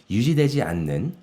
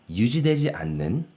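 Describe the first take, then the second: Both takes have the same delivery.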